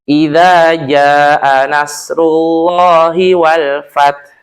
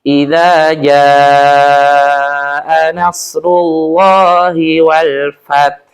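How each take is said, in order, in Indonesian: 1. Vokal di 'jaa' dibaca pendek. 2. Vokal di 'jaa' dibaca panjang. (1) "yang kedua masih kurang tepat tajwidnya" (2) "yang pertama itu tajwidnya betul"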